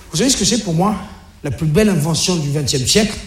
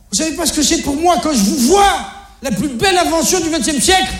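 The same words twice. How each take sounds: First: Question posée. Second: Question excédée. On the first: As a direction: question posée, voix retenue et plus basse sur la fin. Le père pose sa devinette aux ados. (devinette posée calmement) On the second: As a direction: question excédée, perchée dans l'aigu. Le père répète sa devinette, excédé. (question de père excédé, très aiguë) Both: Acted.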